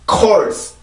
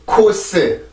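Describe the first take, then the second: First: It is one syllable with an R sound. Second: It is two syllables with no R sound. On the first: The speaker calls it right. "이 단어는 그렇게 발음을 하고요" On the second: The speaker calls it wrong. "절대 코스, 코스, 코스 이렇게 하면 안 돼요"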